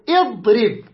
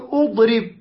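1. تبدأ الكلمة بالكسرة. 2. تبدأ الكلمة بالضمة. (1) "نكسرها، نقول اضرب" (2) "لا نقول اضرب"

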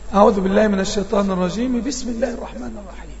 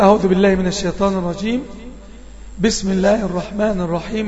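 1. «الرجيم» يتصل مباشرة بـ«بسم» بدون وقف. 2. يوجد وقف مع نفس بعد «الرجيم». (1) "وصل الأول بالثاني" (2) "قطع الأول يعني أقطع ... أقرأ وبعدين أقف وأخذ نفس"

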